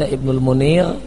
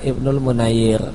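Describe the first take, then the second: First: The second name is said with two syllables. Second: The second name is said with three syllables. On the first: The speaker calls it wrong. "Sebagian orang salah baca dengan membaca Ibnu Munir" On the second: The speaker calls it right. "yang benar adalah Ibnu Munayyir"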